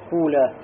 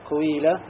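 First: The first vowel is a u. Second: The first vowel is an i with rounded lips. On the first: "и затем, да, дом" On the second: "Затем аль-ишмам, то есть сказать, например"

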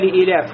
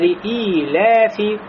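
First: The vowel after the hamza is short. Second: The vowel after the hamza is long. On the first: The speaker calls it wrong. "Не просто" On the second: The speaker calls it right. "после хамза я, значит, есть долгота"

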